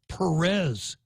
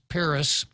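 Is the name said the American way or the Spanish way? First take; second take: American; Spanish. First: The name is given an American pronunciation. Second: The name is given a Spanish pronunciation. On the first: The speaker calls it wrong. "you hear people pronouncing that word wrong" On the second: The speaker calls it right. "it's properly pronounced"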